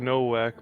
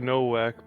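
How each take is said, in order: First: The name is said with an English pronunciation. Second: The name is said with an English pronunciation.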